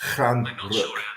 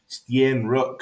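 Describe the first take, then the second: First: The name begins with a 'ch' sound. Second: The name begins with an 'st' sound. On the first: The speaker calls it right. "it is pronounced Chan Rook" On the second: The speaker calls it wrong. "you'd think it's like Stien Rook or something like that"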